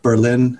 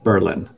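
First: Pronounced like the name of the German city. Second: Pronounced the local New Hampshire town way. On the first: It names the capital of Germany. "as that city in Germany" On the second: It names the small New Hampshire town. "but we pronounced it Berlin"

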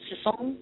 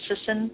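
First: The name is said with a French pronunciation. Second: The name is said with an English pronunciation. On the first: "I like it when they French say it because it's Sisson" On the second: "I call my last name Sisson"

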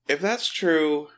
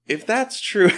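First: It is said in his normal voice. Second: It is said in a put-on child's voice.

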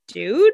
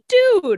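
First: It is said as a questioning rise. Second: It is said as an emphatic exclamation.

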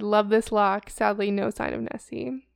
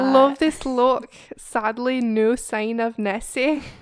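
First: It is said in her plain accent. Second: It is said in a put-on Scottish accent.

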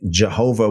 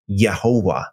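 First: The name begins with a J sound. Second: The name begins with a Y sound. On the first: This is the modern English pronunciation. The speaker calls it wrong. "I think that Jehovah would be pronounced" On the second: This is closer to the older, original pronunciation. The speaker calls it right. "pronounced more like Yehovah"

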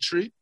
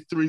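First: The word begins with a plain 't' sound. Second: The word begins with a 'th' sound. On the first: "we say tree" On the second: "we don't say three"

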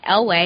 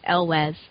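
First: The name ends in an 'ay' sound, no 's'. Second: The name ends with an 's' sound. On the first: The speaker calls it wrong. "they all said Elway" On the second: The speaker calls it right. "he's like, it's Elwes"

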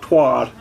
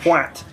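First: The word ends with a soft d sound. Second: The word ends with a crisp t sound. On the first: This is how Americans say it. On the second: This is how the English say it.

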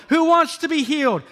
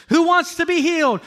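Both takes have the same delivery.

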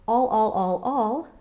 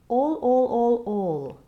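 First: The vowel is a bright, flat a sound. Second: The vowel is a warm, round open o. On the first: The speaker calls it wrong. "Rather than singing the brighter sound of all" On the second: The speaker calls it right. "use this open O, getting a warmer, rounder sound"

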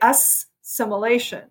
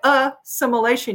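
First: The s sound is doubled and long. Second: The s sound is single and short. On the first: The speaker calls it wrong. "You don't say assimilation" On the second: The speaker calls it right. "you say assimilation"

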